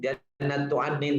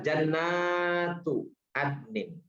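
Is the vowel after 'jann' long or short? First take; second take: short; long. First: The vowel after 'jann' is short. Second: The vowel after 'jann' is long. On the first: There is only one garden. The speaker calls it wrong. "Kalau dibacanya jannatun, jannatu adnin misalnya, itu berarti satu" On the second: There are many gardens. The speaker calls it right. "Tapi ini ternyata jannatu adnin. Jadi surga-surga Aden"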